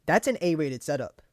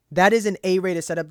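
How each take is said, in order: First: Said in the usual way. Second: "is" punched hard and loud, the whole line louder; loud insistence on "is" as he repeats himself; emphatic repeat. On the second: Real, not acted. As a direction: lean on "is" to insist the setup is A rated.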